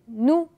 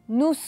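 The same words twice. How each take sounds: First: The final S sound is silent. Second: The final S sound is pronounced. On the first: The speaker calls it right. "Je dis nous" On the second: The speaker calls it wrong. "On ne dit pas nous. C'est faux"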